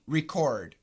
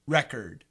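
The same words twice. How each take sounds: First: The stress falls on the second syllable. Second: The stress falls on the first syllable. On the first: It is a verb: to capture sound or data. "so as a verb" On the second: It is a noun: a thing that was recorded. "And as a noun"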